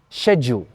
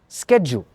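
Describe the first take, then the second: First: It is said with a British pronunciation. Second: It is said with an American pronunciation. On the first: "An Englishman says schedule" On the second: "an American says schedule"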